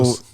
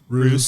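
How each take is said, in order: First: The vowel is an 'oh' sound. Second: The vowel is an 'oo' sound. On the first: "It's Rose Nursery" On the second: "Some pronounce it as Ruse Nursery"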